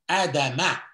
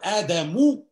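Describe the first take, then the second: First: The word ends with an 'a' vowel. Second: The word ends with a 'u' vowel. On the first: Adam is the object who is received by the words. "it is Fatha" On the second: Adam is the subject who receives the words. "Instead of Dhamma"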